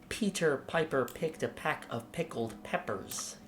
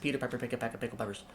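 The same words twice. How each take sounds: First: It is said slowly, with wide jaw movement. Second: It is said fast.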